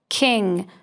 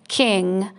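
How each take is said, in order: The two takes are said the same way.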